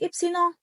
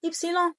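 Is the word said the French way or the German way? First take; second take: French; French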